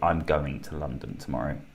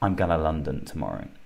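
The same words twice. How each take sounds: First: 'Going to' is said in full. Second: 'Going to' is reduced to 'gonna'. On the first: The speaker calls it right. "We say" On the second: The speaker calls it wrong. "We don't say"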